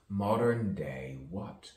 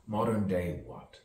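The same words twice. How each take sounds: First: MODERN stressed, tune rising on "what"; rising question. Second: MODERN punched, tune falling on "what"; falling question. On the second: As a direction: stress "Modern" and let "what" drop. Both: Shown as a demonstration.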